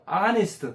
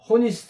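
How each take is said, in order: First: The word starts without any h sound. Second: The word starts with a clear h sound. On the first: The speaker calls it right. "H 발음 안 해요" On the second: The speaker calls it wrong. "호니스트 안 하고"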